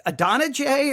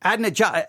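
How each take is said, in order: First: Adonijah as uh-DON-uh-jay; questioned pronunciation. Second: Adonijah as AD-nuh-jah, the start run together; alternative pronunciation. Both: Shown as a demonstration. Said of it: "Which one is it?".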